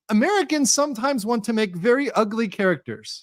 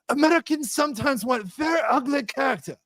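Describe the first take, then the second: First: It is read in his normal accent. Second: It is read in a put-on Asian accent.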